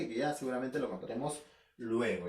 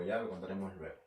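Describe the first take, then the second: First: Said in the usual way. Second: Much lower and softer, muttered to himself; a trailing throwaway repeat; quiet aside. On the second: Real, not acted. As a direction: drop the voice as if talking to yourself. Repeats the promise, then fades.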